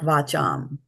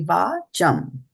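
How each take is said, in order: First: The first vowel is kept short. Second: The first vowel is held long. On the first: The speaker calls it wrong. "not va cham" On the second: The speaker calls it right. "be mindful of where the A has a bar"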